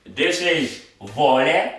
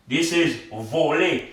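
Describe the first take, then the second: First: "voler" with open O and open final E, as in vɔlɛ; open vowels. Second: "voler" with closed O and closed final E, as in vole; closed vowels. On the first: Teacher contrasting voler, thief, for students. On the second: Teacher contrasting voler, to fly, for students. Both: Shown as a demonstration. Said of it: "the accent turns the O to O, the A to E".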